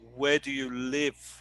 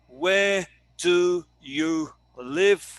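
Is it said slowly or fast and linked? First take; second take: fast; slowly. First: Words are said fast and run together. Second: Words are said slowly and separately.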